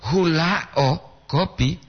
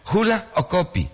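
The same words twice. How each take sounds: First: "hula o" drawn together, then "kopi" apart; pause after HULA O. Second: High "Hula", short break, "o kopi" together; pause before O KOPI. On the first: Teacher showing the coffee-flower meaning, "hula o" joined before "kopi". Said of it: "itu bunga dari kopi kan". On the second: Teacher showing learners the intonation, "Hula" split from "o kopi". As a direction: say "Hula" alone, then join "o kopi". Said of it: "boleh intonasi teh". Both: Shown as a demonstration.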